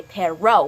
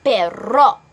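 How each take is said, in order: First: "perro" with flat English R and vowels; wrong, unaccented R. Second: "perro" slow and loud with a rolled R; Spanish rolled R. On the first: Teacher showing what not to say, unaccented "perro". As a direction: say "perro" like an English speaker, no roll. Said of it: "We don't just say". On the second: Teacher correcting the class, emphatic Spanish "perro". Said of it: "We say". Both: Shown as a demonstration.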